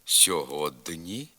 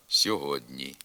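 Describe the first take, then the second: First: «сьогодні» slowly, with д hard before ні; as written. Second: «сьогодні» with д palatalized before ні; softened д. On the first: Teacher reading the spelling, hard д in «сьогодні». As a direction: say «сьогодні» with an unsoftened д. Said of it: "пишемо". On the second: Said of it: "а вимовляти треба". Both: Shown as a demonstration.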